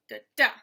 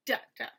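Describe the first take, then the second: First: "da, DA", weak then strong; stress on second DA. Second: "DA, da", strong then weak; stress on first DA. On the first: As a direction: step lightly into a stressed final "DA". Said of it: "unstressed, then stressed". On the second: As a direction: punch the first "da", drop the second. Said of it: "It's stressed, then unstressed". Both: Shown as a demonstration.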